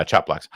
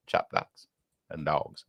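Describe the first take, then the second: First: Said in the usual way. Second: Whispered to himself, puzzled. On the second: Real, not acted. Host mulls over a viewer's odd message, whispering. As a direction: breathe it out like a private thought.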